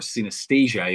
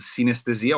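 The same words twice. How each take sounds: First: The name is pronounced the English way. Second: The name is pronounced the Italian way.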